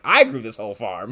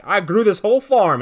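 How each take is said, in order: First: Said in the usual way. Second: Higher, louder proud claim; hammed-up bragging hero; proud boast. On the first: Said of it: "on the other end, he's like". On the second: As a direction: belt it out like a triumphant hero. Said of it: "Meteor Man's like".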